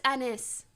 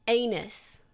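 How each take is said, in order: First: "anise" said AN-iss, stress on the first syllable; "anise" the way the name is meant; correct pronunciation. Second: "Anus" said like the body part, AY-nus; the wrong reading, "Anus"; "Anus" as the wrong pronunciation; mispronounced name. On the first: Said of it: "It's pronounced". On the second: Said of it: "It's pronounced anise". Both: Shown as a demonstration.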